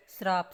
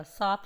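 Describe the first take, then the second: First: श्राप with r after the first consonant; wrong form with r. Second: साप with no r, as saap; correct form without r. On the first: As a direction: sound the r in श्राप. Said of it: "श्राप नहीं होता". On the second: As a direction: go straight from s to long aa in साप. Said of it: "साप शुद्ध रूप होता है". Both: Shown as a demonstration.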